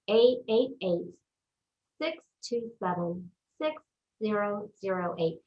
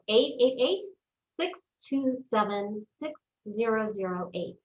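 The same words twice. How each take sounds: First: The number is read at a slower pace. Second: The number is read at a faster pace.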